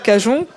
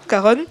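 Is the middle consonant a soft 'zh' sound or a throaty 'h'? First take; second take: soft zh; throaty h. First: The middle consonant is a soft 'zh' sound. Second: The middle consonant is a throaty 'h' sound. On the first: It is read the way it is written. "Comme il écrit" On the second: It follows the Spanish pronunciation. "le J t'es prononcé en E"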